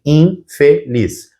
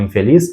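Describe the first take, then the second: First: "infeliz" slowly split as in-fe-liz; syllable by syllable. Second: Said in the usual way. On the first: Shown as a demonstration. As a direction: separate each syllable of "infeliz" with a small gap. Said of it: "porque vai dizer assim". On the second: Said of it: "Quando eu for separar a palavra".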